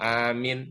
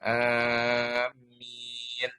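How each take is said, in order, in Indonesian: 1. Vokalnya dibaca pendek. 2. Vokalnya dibaca panjang. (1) "jangan dibaca pendek" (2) "A-nya panjang, mim-nya dipanjangkan"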